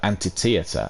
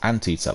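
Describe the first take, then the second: First: It is said as anti plus theater. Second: It is said as ant plus eater. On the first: The speaker calls it wrong. "I kept saying that wrongly" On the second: The speaker calls it right. "like eater of ants"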